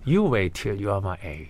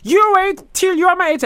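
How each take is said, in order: First: It is said in a smug, gloating tone. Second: It is said in a bright, cheerful tone.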